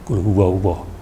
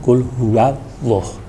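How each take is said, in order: First: The wa sounds heavy and rounded, close to wo. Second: The wa sounds light, with a clear open a. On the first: The speaker calls it wrong. "Itu tidak benar" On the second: The speaker calls it right. "Yang sebenarnya yaitu qul huwallah"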